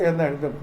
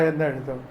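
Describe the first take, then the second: Both takes have the same delivery.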